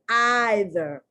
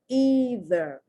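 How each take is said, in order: First: The first vowel is a long 'eye' sound. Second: The first vowel is a long 'ee' sound. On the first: "The Brits say either" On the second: "in American English, we say either. The E is pronounced E"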